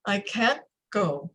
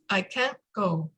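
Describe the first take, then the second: First: "can't" held on a silent stop, then "go" clear, slow; stopped T in "can't". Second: "can't" stopped short with no T released, slower; T swallowed in "can't". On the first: Coach demonstrating the stop before "go". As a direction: pause inside "can't" before "go". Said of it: "a space of time and sound". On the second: Coach showing the client the swallowed T. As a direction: let the T in "can't" vanish into a stop. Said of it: "where's the T?". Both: Shown as a demonstration.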